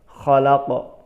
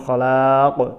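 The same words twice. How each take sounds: First: The vowel is kept short and quick. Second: The vowel is drawn out long. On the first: The speaker calls it right. "tetapi di dicepatkan" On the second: The speaker calls it wrong. "Jangan khalaq"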